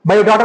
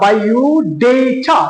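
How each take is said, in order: First: The first vowel of data is 'ah'. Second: The first vowel of data is 'ay'. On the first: The speaker calls it wrong. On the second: The speaker calls it right.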